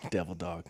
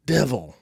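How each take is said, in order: First: Said in the usual way. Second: Louder, clipped reproach; disappointed sergeant. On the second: Retold or imitated. Warren scolding the speaker for betraying him, mock reproach. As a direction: say it like a let-down friend. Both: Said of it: "in a "Why would you do this to me?" tone".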